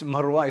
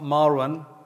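First: The stress is on the second syllable. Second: The stress is on the first syllable. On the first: The speaker calls it right. "It's Marwan. ... It's the alif is Marwan" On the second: The speaker calls it wrong. "why do you stress the mar? ... Not Marwan"

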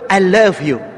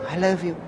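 First: It is said proudly and happily. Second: It is said dully, without pride. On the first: The speaker is proud of the love. The speaker calls it right. "Be proud. Be happy" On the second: The speaker seems ashamed or indifferent. The speaker calls it wrong. "Don't say"

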